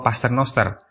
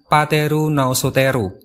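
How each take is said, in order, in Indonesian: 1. Diucapkan dengan gugus konsonan Latin yang biasa. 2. Ada vokal tambahan, sehingga suku katanya terdengar seperti bahasa Jepang.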